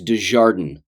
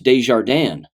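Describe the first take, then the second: First: The name is said with English-style sounds. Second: The name is said with French-style sounds. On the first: This is how the family itself said it. The speaker calls it wrong. "that's how they pronounced it" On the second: This is how the name is properly said. The speaker calls it right. "it's a French name and it's pronounced Desjardins"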